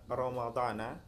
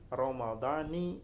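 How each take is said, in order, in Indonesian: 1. Kata ini berakhir dengan vokal 'a'. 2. Kata ini berakhir dengan vokal 'i'. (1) "misalkan Ramadan ini dibaca Ramadana" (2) "harus dibaca mudhaf kepada hadhihi sanah"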